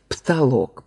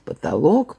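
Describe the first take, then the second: First: The first vowel is dropped almost entirely. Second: The first vowel is clearly heard. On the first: This is the Moscow variant. "вот это московские варианты" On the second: This is the Petersburg variant. "петербургские"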